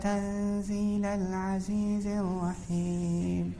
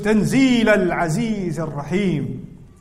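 First: It is recited softly and sweetly. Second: It is recited forcefully, as an exclamation.

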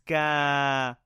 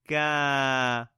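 First: The vowel is held for two counts. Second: The vowel is held for two counts.

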